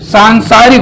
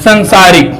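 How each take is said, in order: First: The first vowel is long. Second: The first vowel is short. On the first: The speaker calls it right. "सांसारिक होता है" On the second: The speaker calls it wrong. "ना कि संसारिक"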